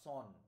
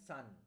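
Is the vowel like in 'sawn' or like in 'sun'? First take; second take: sawn; sun. First: The vowel is a rounded 'o' sound. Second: The vowel is an open 'uh' sound. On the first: The speaker calls it wrong. "নট সন" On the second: The speaker calls it right. "সান, not সন"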